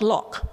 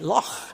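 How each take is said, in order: First: It ends with a plain, non-throaty consonant. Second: It ends with a harsh, throaty rasping sound. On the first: The speaker calls it wrong. "It's not loch" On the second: The speaker calls it right. "It's definitely loch"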